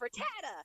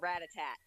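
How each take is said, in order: First: The name ends with a final vowel sound. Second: The name ends without a final vowel sound.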